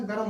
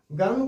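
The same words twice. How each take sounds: First: गरम opened into "ga-ram"; correct full form. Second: गरम squeezed into "garm"; wrong clustered form. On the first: Teacher repeating the right form, गरम as "ga-ram". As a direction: say गरम in two syllables. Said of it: "गरम होता है". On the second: Teacher repeating the wrong form, गरम as "garm". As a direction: say गरम with no vowel between r and m. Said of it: "गरम कोई शब्द नहीं होता". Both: Shown as a demonstration.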